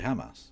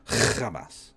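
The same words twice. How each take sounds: First: The opening H is a plain, light English h. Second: The opening H is a harsh, throaty rasp. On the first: It is the ordinary way to say the word in English. "when they're speaking in a normal flow, they just say Hamas" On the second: It makes the word sound foreign and dangerous. "they put phlegm on uh, Hamas"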